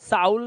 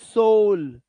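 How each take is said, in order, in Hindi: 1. यह स्वर 'cow' के 'ow' जैसा बोला जाता है। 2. यह स्वर 'go' के 'oh' जैसा बोला जाता है। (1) "साउल नहीं है" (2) "अब ये ओ हो गया"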